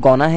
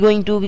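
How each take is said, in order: First: The words blend into one short reduced form. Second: Both words are said fully and separately.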